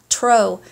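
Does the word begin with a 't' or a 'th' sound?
t. It begins with a plain t sound. The speaker calls it wrong. "not tro. It's the Polish coming out"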